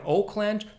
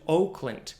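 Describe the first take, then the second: First: The last syllable has a full vowel. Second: The last syllable has a reduced vowel. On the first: "reduce from Oakland" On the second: "to Oakland"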